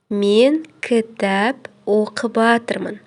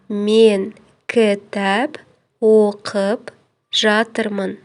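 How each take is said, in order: First: The verb words are run together into one shortened word. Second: The verb words are said fully and separately. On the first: The speaker calls it wrong. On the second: The speaker calls it right.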